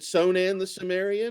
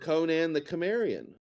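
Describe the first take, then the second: First: Both names begin with a soft S sound. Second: Both names begin with a hard K sound.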